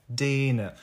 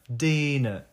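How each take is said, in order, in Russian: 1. Первый гласный растянутый и удлинённый. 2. Первый гласный растянутый и удлинённый.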